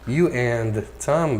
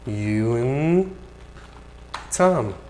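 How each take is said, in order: First: The word 'and' is said fully and clearly. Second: The word 'and' shrinks to a linked 'n' sound.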